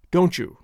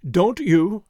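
First: Don't you merged into "doan-chew"; run together. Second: Don't you, a crisp T kept apart from "you"; two distinct words. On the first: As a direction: blend "Don't you" into one word with a CH. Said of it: "but we always say". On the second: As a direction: separate "Don't" and "you" cleanly. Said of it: "two separate and distinct words". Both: A narrator's reading.

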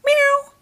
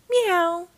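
First: Very high, loud cat cry; crying kitten meow. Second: Purred kitten meow. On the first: Bubble Kitty seeing the ranger dangling, loud high meow. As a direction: meow in alarm like a little cat. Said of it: "cried Bubble Kitty". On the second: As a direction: mew sweetly in thanks. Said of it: "Bubble Kitty purred her thanks". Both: A narrator's reading.

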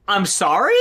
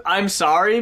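First: "I'm sorry?" as a baffled question rising at the end; incredulous "I'm sorry?". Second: Said in the usual way. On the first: Shown as a demonstration. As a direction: ask "I'm sorry?" like you can't believe it. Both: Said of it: "you kind of visual it as".

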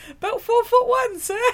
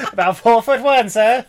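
First: High, earnest little reply; short thief. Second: Laughing retelling. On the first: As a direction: answer like a tiny bandit. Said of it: "the joke". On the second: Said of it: "that's right". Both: Retold or imitated.

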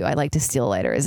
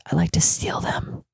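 First: Said in the usual way. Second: Whispered naughty secret; hushed, voiceless confession; confessional whisper. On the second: Pretend. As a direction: whisper it like a guilty admission.

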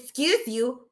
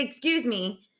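First: Mild mock sass, a little higher; with attitude. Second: Said in the usual way. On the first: Daughter correcting mom after a burp, with attitude. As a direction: imitate a kid's pointed comeback. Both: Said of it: "she said it with attitude".

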